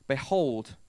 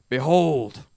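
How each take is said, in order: First: It is read in a plain, ordinary voice. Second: It is proclaimed in a forceful, dramatic voice.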